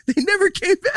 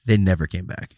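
First: High mocking singsong; mock the claim in a high voice. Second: Said in the usual way. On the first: Arguing, mock voice.

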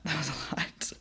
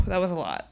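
First: Laughing. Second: Sighing. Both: Real, not acted.

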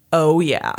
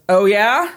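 First: Low "Oh, yeah." falling at the end; smug comeback. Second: "Oh, yeah?" rising at the end; challenging question. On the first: Judge answering Alan back, smug falling "Oh, yeah.". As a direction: drop "yeah" low, with a smile. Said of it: "a smile on his face when he says that". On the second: Alan challenging the judge, rising "Oh, yeah?". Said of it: "And Alan goes". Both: Retold or imitated.

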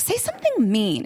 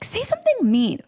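First: Said in the usual way. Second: "Say something mean" pitched up, pleading; higher insistent repeat. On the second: Retold or imitated. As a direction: push harder each time. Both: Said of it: "I'm like".

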